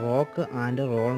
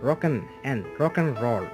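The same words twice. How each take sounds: First: The word 'and' is said in full. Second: The word 'and' is reduced to 'n'. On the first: The speaker calls it wrong. "നമ്മൾ മലയാളികളാണെങ്കിൽ rock ആൻഡ് റോൾ എന്നാണ് പറയാറുള്ളത്" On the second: The speaker calls it right. "അതിന് പകരമായി നമ്മൾ പറയേണ്ടത്"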